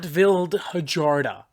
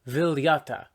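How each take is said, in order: First: The name is said letter by letter as Vildhjarta. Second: The name is said smoothly as Viljata. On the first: The speaker calls it wrong. "which is absolutely unironically what I was going to say" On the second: The speaker calls it right. "Viljata. Not Vildhjarta"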